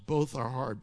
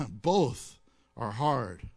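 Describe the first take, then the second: First: Said in the usual way. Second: BOTH drawn out low and slow; slow emphatic both. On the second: Shown as a demonstration. Preacher stressing Both to the congregation, slowly. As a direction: lean hard on Both, slowly.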